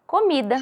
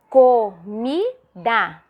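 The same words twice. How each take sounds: First: Said in the usual way. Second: "comida" as co... mi... da, very slow; teacherly "comida" in three drawn-out beats; separated into syllables. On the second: Shown as a demonstration. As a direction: sound out "comida" with a gap after each syllable. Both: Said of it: "a professora já separou falando".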